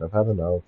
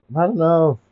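First: Said in the usual way. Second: Higher, louder fed-up cry; raised exasperated cry. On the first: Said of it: "repeated louder". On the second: Acted. Repeated, raised.

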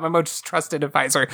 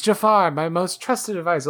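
First: Mocking echo. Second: Mock Sultan line. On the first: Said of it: "what are you talking about". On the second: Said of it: "the joke on that is".

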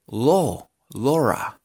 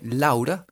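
First: Laura built up as "lo... lora"; English pronunciation. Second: Said in the usual way. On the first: Shown as a demonstration. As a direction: open the AU of Laura into an O. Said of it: "en inglés se pronuncia". (Laura con O abierta, "lora") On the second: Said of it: "que tiene A U".

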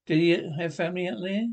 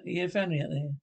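First: Rising tune up to THERE; doubting question. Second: Said in the usual way. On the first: Acted. Turns statement into question.

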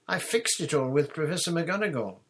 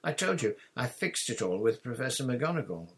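First: High, loud, confident schoolgirl; lightly brushing off concern; breezy assurance. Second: Irritated, higher-pitched insistence; testy repeat of a settled point; snappish. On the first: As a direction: reassure airily in a higher voice. Hermione first reassures Ron. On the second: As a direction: insist with mild exasperation. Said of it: "Hermione snapped". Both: A narrator's reading.

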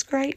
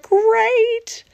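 First: Said in the usual way. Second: Exuberant. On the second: Acted. Third great at the peak.

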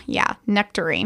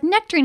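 First: Low, softer, smug agreement; creepy boyfriend. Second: Put-on a higher, guessing voice for the girlfriend. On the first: Retold or imitated. The kidnapper agreeing after drugging her, low and smug. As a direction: agree slyly, like he's hiding something. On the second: The girlfriend guessing what's in her drink, in a higher, innocent voice. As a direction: guess the flavor brightly, sounding innocent. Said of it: "she's like".

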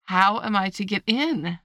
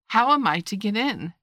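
First: Slower, insistent, louder question. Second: A bit louder, lifted question; repeated aloud. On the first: Alice asking the footman once more, louder and insistent. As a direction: press the question, drawn out and firm. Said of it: "in a louder tone". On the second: Alice repeating her question to the footman, aloud. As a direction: ask it out loud, clearly. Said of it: "she repeated aloud". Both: A narrator's reading.

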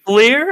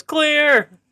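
First: Raised high and loud, questioning lift at the end; high, loud tentative shout; retold yell, questioning. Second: Very high call dropping at the end; high-pitched imitation warning shout; retold warning yell. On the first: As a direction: call it out as an unsure guess. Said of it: "What does he yell?". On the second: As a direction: yell it out like a warning, now certain. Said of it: "I think he goes".

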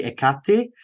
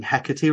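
First: Hecate said as ih-KAT-ee; corrected pronunciation. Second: Hecate said as HEK-uh-tee; the criticised pronunciation. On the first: Host quotes a commenter's correction, Hecate as ih-KAT-ee. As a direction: move the stress in Hecate to the middle, ih-KAT-ee. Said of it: "It's actually Hecate". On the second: Host quotes a commenter's correction, Hecate as HEK-uh-tee. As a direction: stress the first syllable of Hecate, HEK-uh-tee. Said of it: "you're saying Hecate wrong". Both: Retold or imitated.

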